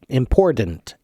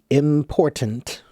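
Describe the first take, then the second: First: The middle consonant sounds like a D. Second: The middle consonant sounds like a clear T. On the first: The speaker calls it wrong. "like it's like a T, or I'm sorry, a D in the middle" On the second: The speaker calls it right. "if it's pronounced slowly, again, it should be important"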